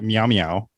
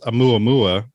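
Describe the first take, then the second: First: The name begins with an M sound. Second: The name begins with a vowel sound. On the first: The speaker calls it wrong. "I was calling it" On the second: The speaker calls it right. "the correct name is"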